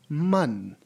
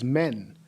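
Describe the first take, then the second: First: The vowel is darker, closer to 'mun'. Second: The vowel sounds like English 'men'. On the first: The speaker calls it right. "It is pronounced as man" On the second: The speaker calls it wrong. "It is not pronounced as men"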